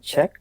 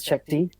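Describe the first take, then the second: First: The name is said as a single syllable, check. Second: The name is said with an extra dee sound. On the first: The speaker calls it right. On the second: The speaker calls it wrong.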